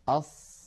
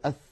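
First: The final consonant is a clear hissing s. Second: The final consonant is a lisped th sound. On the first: The speaker calls it right. "أص الصاد أن نضع رأس لساننا على الصفحة الداخلية للأسنان العليا" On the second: The speaker calls it wrong. "الأقرط، يعني الذي يقول أص أو يقول أث"

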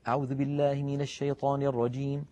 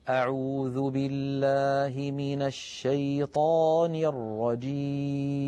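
First: It is recited quickly. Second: It is recited slowly and calmly.

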